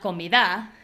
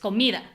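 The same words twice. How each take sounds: First: The stress falls on a syllable other than mi. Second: The stress falls on the middle syllable, mi. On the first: The speaker calls it wrong. "it's not comida" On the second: The speaker calls it right. "mi is the strong syllable"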